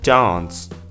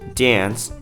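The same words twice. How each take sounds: First: The vowel sounds like an open 'ah'. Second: The vowel sounds like the one in 'yeah'. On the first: "in other accents, they retain the ah sound" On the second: "In the second one, it sounded yeah"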